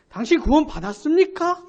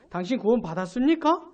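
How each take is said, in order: First: The question is asked more strongly and forcefully. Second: The question is asked in a mild, ordinary tone.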